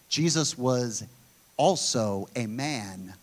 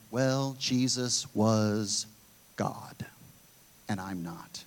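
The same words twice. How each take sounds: First: Said in the usual way. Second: Low, very slow, fading pushback excuse; mock pushback. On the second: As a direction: drag it out low and trail off to nearly nothing. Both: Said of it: "the pushback that you hear".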